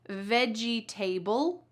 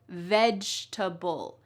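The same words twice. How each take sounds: First: The ending is said fully, like the word table. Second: The middle sounds are reduced and the ending shortened. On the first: The speaker calls it wrong. "So do we say vegetable? Nope" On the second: The speaker calls it right. "Instead, we say vegetable"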